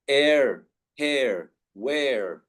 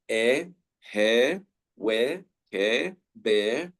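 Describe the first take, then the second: First: "Air, hair, wear" with R sounded; American pronunciation. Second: "air, hair, wear, hair, bear" all ending in "eh"; British pronunciation. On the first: Teacher drilling American examples, "Air, hair, wear" with final R. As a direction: finish each of "Air, hair, wear" on a full R. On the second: Teacher drilling British examples, "air, hair, wear, hair, bear" without R. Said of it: "in British pronunciation". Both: Shown as a demonstration.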